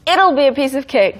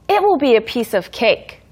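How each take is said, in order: First: 'It will' is joined into one short syllable. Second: 'It will' is said as two full words. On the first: "it will be를 it'll be라고 발음을 해줍니다" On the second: "It will be a piece of cake이지만"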